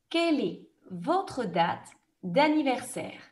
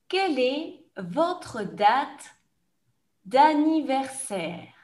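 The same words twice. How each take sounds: First: The question is said at a fast pace. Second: The question is said at a slow pace. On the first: "je vais poser la question rapidement comme dans un examen" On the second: "je vais reposer la question plus lentement"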